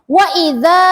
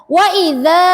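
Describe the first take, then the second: No difference in how they are said.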